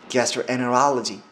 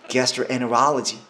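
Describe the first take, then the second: First: The t merges into the n sound. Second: The t merges into the n sound.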